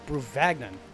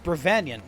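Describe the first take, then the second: First: The G in the name is pronounced. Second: The G in the name is silent.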